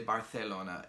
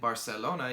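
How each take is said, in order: First: The C is said as a TH sound. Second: The C is said as an S sound.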